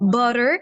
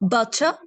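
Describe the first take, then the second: First: It is said in an American accent. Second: It is said in a British accent. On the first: "American accent में इसको पढ़ते हैं double टी को र" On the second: "British accent में"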